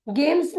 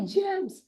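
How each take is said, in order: First: गेम्स starting with a hard g; wrong version. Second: जेम्स starting with a j sound; correct version. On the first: Teacher shows the mistaken reading for trainees, a mock error. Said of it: "नहीं होता है". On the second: Teacher contrasts the right and wrong g sound, clearly. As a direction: model जेम्स with an initial j. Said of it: "गेम्स नहीं होता है". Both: Shown as a demonstration.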